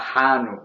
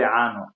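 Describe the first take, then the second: First: The word begins with an h sound. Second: The word begins with a vowel sound. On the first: This is how the other dialect says it. "But you say hanu" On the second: This is how the speaker's own dialect says it. "We say ano"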